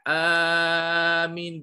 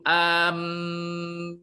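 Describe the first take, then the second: First: The first vowel is drawn out long. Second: The m sound is doubled and held. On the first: "bil mad" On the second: "dia baca dengan uh, tasydid"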